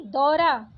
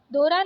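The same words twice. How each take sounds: First: Said in the usual way. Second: दौरा said "do-ra", closed o; wrong vowel. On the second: Shown as a demonstration. Teacher rejecting a spelling, दौरा with plain o. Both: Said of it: "दौरा नहीं".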